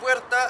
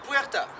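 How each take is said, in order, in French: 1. Il est prononcé avec un accent espagnol. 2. Il est prononcé avec un accent français.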